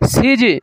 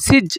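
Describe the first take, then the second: First: The final j is released with an echoing bounce. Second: The final j stops flat without any bounce. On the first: The speaker calls it right. "কলকলা হরফ কি আসছে জিম আসছে এই জন্য এখানে আমরা কি পড়বো" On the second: The speaker calls it wrong. "এরকম বলা যাবে না"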